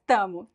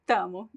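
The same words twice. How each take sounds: Both takes have the same delivery.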